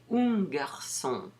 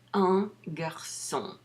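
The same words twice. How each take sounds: First: The vowel of 'un' is not nasalized. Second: The vowel of 'un' is clearly nasalized. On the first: The speaker calls it wrong. "Don't say un garçon" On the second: The speaker calls it right. "Say un garçon"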